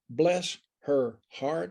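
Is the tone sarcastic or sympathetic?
sarcastic. It sounds pointed and sarcastic. The person is being quietly criticized. "if somebody is just a bit overbearing and inappropriate and out of sorts"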